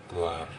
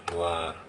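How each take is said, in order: The two takes are said the same way.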